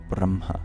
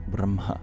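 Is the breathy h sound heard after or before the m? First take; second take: after; after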